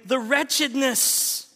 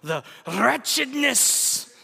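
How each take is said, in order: First: The r is pronounced plainly, without a trill. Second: The r is rolled with a trill.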